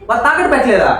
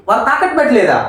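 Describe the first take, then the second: No difference in how they are said.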